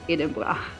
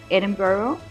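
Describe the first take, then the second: First: The word is pronounced with a Scottish accent. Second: The word is pronounced with an English accent. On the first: "Scottish people, they say Edinburgh" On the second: "English people, or in English, we actually say Edinburgh"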